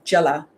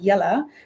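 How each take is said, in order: First: The word begins with a hard J sound. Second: The word begins with a soft Y sound. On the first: This is Cape Coloured slang. "they'll pronounce it as a hard J" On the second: This is the standard Afrikaans pronunciation. "it's spelled with a J, but it's pronounced with a Y"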